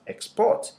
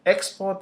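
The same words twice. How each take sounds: First: ExPORT, last syllable high and strong; stress on second syllable. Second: EXport, first syllable high and strong; stress on first syllable. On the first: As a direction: hit PORT in export. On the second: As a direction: punch EX in export. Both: Shown as a demonstration. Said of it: "depending on where you put the stress".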